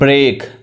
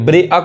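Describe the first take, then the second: First: The 'ea' is said as one single vowel. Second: The 'ea' is split into two separate vowels. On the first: The speaker calls it right. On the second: The speaker calls it wrong.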